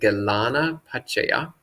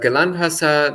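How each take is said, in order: First: It is said in a full, separated form. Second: It is said in a shortened, run-together form. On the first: "of the Pali" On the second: "this is the Sri Lankan pronunciation"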